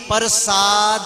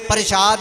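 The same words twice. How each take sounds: First: The word ends with a final i vowel. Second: The word ends without a final i vowel. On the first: The speaker calls it right. "पप्पे के पैर च रारा सस्से नूं कन्ना दद्दे नूं सिहारी" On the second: The speaker calls it wrong. "प्रसाद नहीं"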